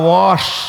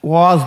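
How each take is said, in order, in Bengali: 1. শব্দটি একটি ঘোষহীন sh ধ্বনি দিয়ে শেষ হয়। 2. শব্দটি একটি ঘোষযুক্ত z ধ্বনি দিয়ে শেষ হয়। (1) "আমি সাতক্ষীরা মানে আমরা বুঝি ওয়াশ" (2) "আমি ওয়াজ বুঝি না"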